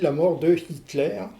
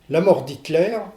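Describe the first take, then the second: First: The vowel of de is kept before the name. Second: The vowel of de is dropped and linked. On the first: The name is used as a German word. "c'est correct aussi" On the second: The name is used as a French word. "c'est correct"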